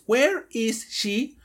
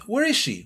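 First: Each word is pronounced separately without linking. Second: The words run together with the S sound lost. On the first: The speaker calls it wrong. "Muchas personas piensan que es where is she, pero nadie habla así" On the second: The speaker calls it right. "Todos usamos este word linking en la vida real"

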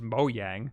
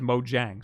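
First: It is pronounced the Swedish way. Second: It is pronounced the English way. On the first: "in Swedish it's Mojang" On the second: "in every other country, they just read it out as Mojang"

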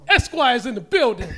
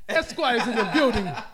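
First: It is said in the speaker's usual accent. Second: It is said in a put-on Scottish accent.

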